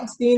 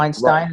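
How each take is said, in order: First: The last syllable sounds like 'steen'. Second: The last syllable sounds like 'stine'. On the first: It names a disgraced person. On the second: It names an admired intellectual. "Weinstein is for the brave intellectual"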